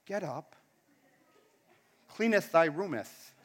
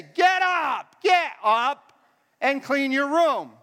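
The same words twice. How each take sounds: First: Low, soft, solemn mock scripture; mock-biblical parent. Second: Exasperated parent shouting. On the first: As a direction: intone it softly like holy writ. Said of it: "Or do you go". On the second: Acted. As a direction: yell it at a dawdling kid. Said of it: "What do you say?".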